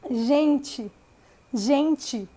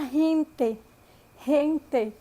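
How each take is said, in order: First: Gente with a final i, like gentchi; Brazilian gente. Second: Gente with a breathy h and a pure final e, like hente; Spanish gente. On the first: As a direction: say gente the Brazilian way, ending in chi. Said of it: "como se tivesse um i no final". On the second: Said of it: "Com E, porque a palavra gente tem o E no final". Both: Shown as a demonstration.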